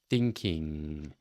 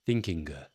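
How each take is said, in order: First: It ends in a long, ringing nasal ng. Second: It ends in a hard, audible g sound. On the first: The speaker calls it right. "draw out that sound. See if you're getting that ringing nasally quality" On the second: The speaker calls it wrong. "with the G pronounced more dramatically than it should be"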